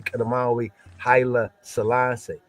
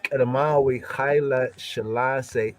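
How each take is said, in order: First: The last name begins with an 's' sound. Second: The last name begins with an 'sh' sound. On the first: This is how Amharic speakers say it. "Amharic speaker speaking Gutters will say" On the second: This is the Ge'ez pronunciation. "in the Gutters"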